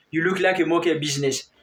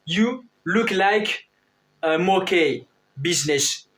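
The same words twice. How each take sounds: First: "You look like a monkey business" rattled off fast; quick repeat. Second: "You look like a monkey business" said slowly, word by word; slow model sentence. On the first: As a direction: toss the phrase off quickly this time. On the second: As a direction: spell the English phrase out slowly for the class. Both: Shown as a demonstration. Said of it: "on dit".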